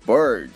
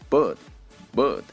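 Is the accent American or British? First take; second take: American; British. First: The r after the vowel is clearly pronounced. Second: The r after the vowel is silent. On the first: "我会用美式发音读出来" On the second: "英式发音"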